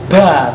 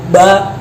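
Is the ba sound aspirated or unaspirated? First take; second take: aspirated; aspirated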